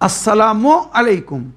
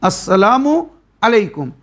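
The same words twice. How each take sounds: Both takes have the same delivery.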